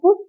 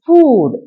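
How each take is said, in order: First: The vowel is said short. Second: The vowel is said long. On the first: The speaker calls it wrong. "It's not ഫുഡ്" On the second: The speaker calls it right. "It's ഫൂഡ്"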